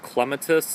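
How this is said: It is said with a British pronunciation.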